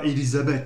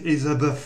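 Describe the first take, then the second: First: The th is said as a plain t sound. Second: The th is said as an English th sound. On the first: The speaker calls it wrong. "c'est pas Elisabeth" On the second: The speaker calls it right. "c'est Elisabeth"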